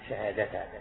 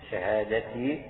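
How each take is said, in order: First: The word ends with an a vowel. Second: The word ends with an i vowel. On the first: The word is the object of an omitted verb. "أو تنصبها على تقدير فعل محذوف" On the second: The word is a partial substitute for the five. "شهادتي تكون مكسورة"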